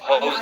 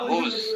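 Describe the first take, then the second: First: The vowel sounds like the one in 'house'. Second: The vowel sounds like the one in 'who'. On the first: The speaker calls it wrong. "এটা হলো হাউস না" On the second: The speaker calls it right.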